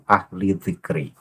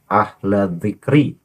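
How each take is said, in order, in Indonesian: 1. Kata pertama berakhir dengan vokal 'i'. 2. Kata pertama berakhir dengan vokal 'a'. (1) "bukan ahli dzikri" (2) "yang pas adalah ahla dzikri"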